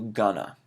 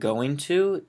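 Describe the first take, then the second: First: The words are blended into one short word. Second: Both words are said fully and separately. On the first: It suits casual, informal situations. "very informal" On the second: It suits formal situations. "native English speakers will shorten going to"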